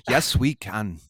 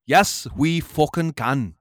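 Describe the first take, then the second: First: Scottish-accented slogan, lower-key take; restrained political slogan in mock Scottish; Obama. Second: Slow, loud Scottish-accented slogan; Obama. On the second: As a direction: hammer out the slogan in mock Scottish, drawn out. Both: Shown as a demonstration. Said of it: "It's my best Scottish Obama".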